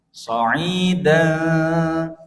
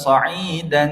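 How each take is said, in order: First: The final n is hidden and nasalized. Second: The final n is pronounced fully and clearly. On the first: The speaker calls it right. "tidak dibaca jelas, tapi dibaca samar-samar" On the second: The speaker calls it wrong. "Itu keliru"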